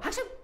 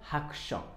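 First: The word is said at a fast pace. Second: The word is said at a slow pace.

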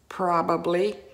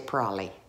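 First: The word is said in full, every syllable clear. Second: The word is said shortened, with syllables cut. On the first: "the word probably does not get pronounced like that" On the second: "We say probably. ... We cut things short here"

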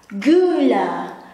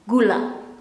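First: The word is said with a Dutch accent. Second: The word is said with an Indonesian accent. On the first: "Dutch version of Indonesian"

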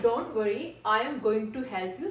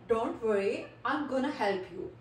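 First: 'Going to' is said in full. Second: 'Going to' is reduced to 'gonna'. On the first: "instead of saying गोइंग टू" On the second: "instead of saying गोइंग टू we can say गोना"

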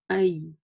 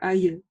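First: The sound is said clearly, without rushing. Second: The sound is rushed very quickly. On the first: The speaker calls it right. "произносить ее правильно" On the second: The speaker calls it wrong. "не было очень быстро ае"

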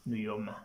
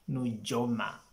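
First: The middle consonant is a 'y' sound. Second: The middle consonant is a 'j' sound. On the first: The speaker calls it right. "just take it that the correct pronunciation is Nuyoma" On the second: The speaker calls it wrong. "It's not Nujoma"

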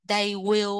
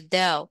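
First: Both words are said in full, unreduced. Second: The words merge into one contracted syllable. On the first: "They will á" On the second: "các bạn đọc là they'll"

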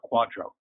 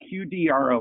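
First: It is said as one word, quadro. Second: It is spelled out letter by letter.

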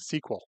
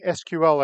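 First: It is spoken as one word, like sequel. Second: It is spoken as three separate letters. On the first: The speaker calls it wrong. "and not saying SQL" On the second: The speaker calls it right. "notice I'm saying SQL"

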